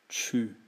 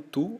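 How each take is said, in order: First: The vowel is a front rounded 'ü' sound. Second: The vowel is a back rounded 'oo' sound. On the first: It is the French word. "em francês é o tu" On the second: It is the Portuguese word. "Então tu, ou você"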